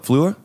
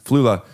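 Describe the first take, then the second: First: The name is said with a questioning rise. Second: The name is said as a confident exclamation. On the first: The speaker checks whether the name is right. "then you question if you said it right" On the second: The speaker confirms the name was correct. "you exclaim that it was correct"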